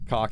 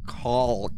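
First: The word is said quickly and casually. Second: The word is said slowly and carefully enunciated. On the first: The speaker calls it wrong. "I wish you would change the way that you say the word" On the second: The speaker calls it right. "let me enunciate"

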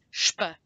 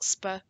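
First: The sound starts with sh. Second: The sound starts with a plain s. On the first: The speaker calls it right. "it's sp" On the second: The speaker calls it wrong. "It's not sp"

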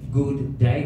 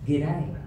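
First: Both words are said fully, with a long vowel. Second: The words are squeezed into one short syllable. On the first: It sounds English. The speaker calls it wrong. "It's very English. It's two O's in that good" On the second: It sounds Australian. The speaker calls it right. "You say"

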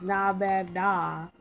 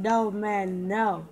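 First: The word is said with an open 'nah' vowel. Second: The word is said with a rounded 'no' vowel. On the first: This is the character's usual way of saying it. The speaker calls it right. "He usually says, nah, man, nah" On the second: This is how it was just said instead. The speaker calls it wrong. "He said, no, man, no"

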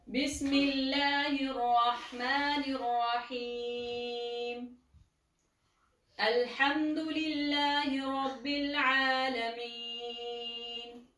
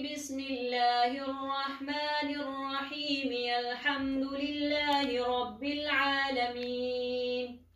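First: A breath pause separates the two phrases. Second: Both phrases run together in one breath.

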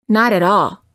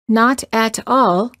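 First: The Ts are quick, linked D-like sounds. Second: The Ts are crisp, separate T sounds. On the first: "sounds like not at all" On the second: "not at all sounds like"

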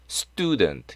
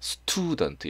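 First: The t after s is unaspirated, like 스뜨. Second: The t after s is aspirated, like 스트. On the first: The speaker calls it right. "student 약간 이렇게 발음합니다" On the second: The speaker calls it wrong. "student 이렇게 안 하고"

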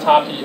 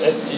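First: The letter X sounds like 'cha'. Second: The letter X sounds like 'ex'. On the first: The speaker calls it wrong. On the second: The speaker calls it right.

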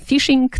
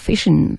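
First: The word ends with a full g sound. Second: The word ends without the g sound. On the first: The speaker does not sound upper-class. The speaker calls it wrong. "Nie mówimy fishing" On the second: The speaker sounds upper-class. The speaker calls it right. "powinien zjadać G w rzeczownikach odczasownikowych. ... tylko fishing"

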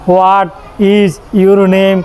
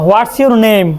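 First: "What is" is said in full and slowly. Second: "What is" is shortened to "what's" and quick. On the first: "মানে এভাবে আস্তে আস্তে বলে না" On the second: "যেন আমরাও দ্রুত বলতে পারি"

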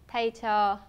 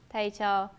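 No difference in how they are said.

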